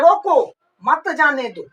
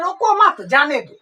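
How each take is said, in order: First: रोको, pause, then मत जाने दो; pause after रोको. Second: रोको मत together, then जाने दो; slight break after मत before जाने दो; pause after मत. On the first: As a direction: break after रोको, keep मत जाने दो together. (रोको के बाद विराम) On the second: (मत के बाद विराम) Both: Shown as a demonstration. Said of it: "ये दोनों का अर्थ क्या है".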